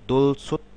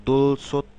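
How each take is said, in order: Both takes have the same delivery.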